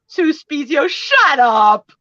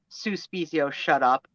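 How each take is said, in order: First: It sounds playful and amused. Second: It sounds hostile and dismissive.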